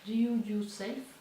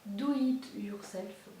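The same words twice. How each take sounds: First: "Do you yourself" said slowly in English with a French accent, "you" rising; a fumbled first try at "Do you yourself"; anglais maladroit. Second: "Do it yourself" said slowly with "it" now in place, still French-accented; carefully fixing the phrase "Do it yourself"; corrected English. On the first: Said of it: "mon accent anglais qui est pourri". ("Do you yourself" lent, anglais fautif avec accent français) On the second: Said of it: "pardon, mon accent anglais". ("Do it yourself" corrigé, lent, accent français) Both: Real, not acted.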